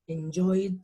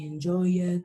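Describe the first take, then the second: First: The ending is a single D sound. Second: The ending is an extra syllable like 'id'. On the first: The speaker calls it right. "Yo lo pronuncio con una sola D" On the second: The speaker calls it wrong. "ni enjoy it"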